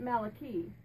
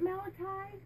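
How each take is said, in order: First: Malachi said MAL-uh-kee, ending like key; Malachi with a final ee sound. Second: Malachi said MAL-uh-kye, ending like eye; Malachi with a final eye sound. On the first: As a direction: say Malachi as mal-a-KEE, last syllable rhyming with see. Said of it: "or do you pronounce it Malachi". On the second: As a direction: say Malachi as mal-a-KYE, last syllable rhyming with sky. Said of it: "do you pronounce it Malachi". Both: Shown as a demonstration.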